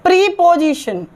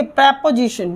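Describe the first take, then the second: First: "प्रीपोजिशन" with a long EE, pree-position; students' mispronunciation. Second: "प्रीपोजिशन" with short E, prep-uh-zishan; correct pronunciation. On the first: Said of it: "विद्यार्थी बोलते हैं". ("प्रीपोजिशन" में लंबी ई, प्री) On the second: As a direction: open "प्रीपोजिशन" with prep, not pree. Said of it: "सही तरीके से pronounce". ("प्रीपोजिशन" को प्रेपोजिशन, छोटे ए से) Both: Shown as a demonstration.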